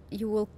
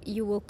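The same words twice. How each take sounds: The two takes are said the same way.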